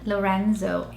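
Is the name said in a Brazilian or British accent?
British. It is said in a British English accent. "in the U K"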